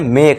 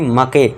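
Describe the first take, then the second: First: The word ends in a consonant, no final vowel. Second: The word ends with an extra vowel sound. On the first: The speaker calls it right. "इसका sound नहीं करेंगे हम" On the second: The speaker calls it wrong. "ना कि मके"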